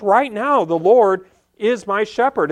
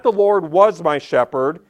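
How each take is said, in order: First: "Right now" and "is" pressed home as the present tense; "Right now, the Lord is my shepherd" with weight on "Right now"; present tense stressed. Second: "was" in "The Lord was my shepherd" stressed as the wrong, past tense; "was" marked off as the past-tense misreading. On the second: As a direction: set up "was" as the tense to reject. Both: Shown as a demonstration. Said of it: "he says this in the present tense".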